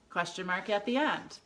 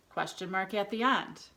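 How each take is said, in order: Both takes have the same delivery.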